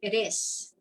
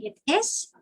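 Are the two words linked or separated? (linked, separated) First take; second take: linked; separated. First: The final consonant links into the vowel. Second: Each word is said separately and distinctly. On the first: The speaker calls it right. "we say it is" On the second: The speaker calls it wrong. "instead of saying it is"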